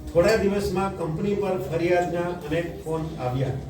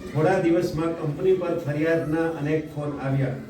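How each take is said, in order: Both takes have the same delivery.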